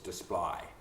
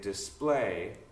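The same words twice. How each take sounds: First: The vowel shifts toward an 'eye' sound. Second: The vowel is a plain standard 'ay' sound. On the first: "the A sound is I in Cockney" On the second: "you may say display"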